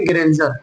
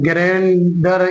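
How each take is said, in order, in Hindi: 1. बीच का व्यंजन j की आवाज़ है। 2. बीच का व्यंजन सादा d वाली आवाज़ है। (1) "बल्कि डी को जा बोलेंगे" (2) "ग्रेंडर इस तरीके से नहीं बोलेंगे"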